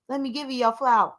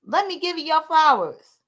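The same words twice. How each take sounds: First: Brisk throwaway quote; quick quoted aside. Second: Insistent restatement; emphatic repeat. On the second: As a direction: lean on the first word. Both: Shown as a demonstration. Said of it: "repeats it more strongly".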